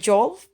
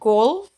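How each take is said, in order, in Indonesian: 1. Kata ini diawali dengan bunyi J. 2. Kata ini diawali dengan bunyi G keras. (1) "bukan jolf" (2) "contohnya golf"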